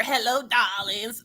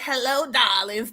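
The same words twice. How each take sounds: First: Slow, soft sultry "Hello, darlings"; husky diva voice. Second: Slow, soft breathy "hello, darlings"; a mock sultry purr; sultry diva voice. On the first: Retold or imitated. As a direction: purr it like a fake sultry diva. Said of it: "tell me that don't sound like an impersonator". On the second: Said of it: "trying to cover up that Adam's apple".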